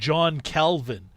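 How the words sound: The name is said with English pronunciation. The speaker calls it wrong. "we're kind of mispronouncing his name"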